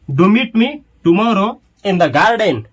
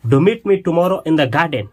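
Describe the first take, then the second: First: Slow, emphatic dictation. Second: Said in the usual way. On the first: Shown as a demonstration. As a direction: do meet me tomorrow in the garden said very slowly, word by word. (धीरे-धीरे, शब्द-शब्द बोलकर) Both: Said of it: "तो अंग्रेजी क्या होगा".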